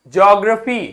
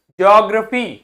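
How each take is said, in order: Both takes have the same delivery.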